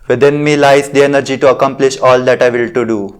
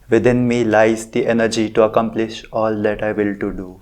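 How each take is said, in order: First: It is said loudly. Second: It is said at normal volume. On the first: "First I will say it loud" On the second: "Now in a normal voice"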